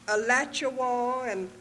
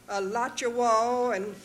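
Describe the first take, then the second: The two takes are said the same way.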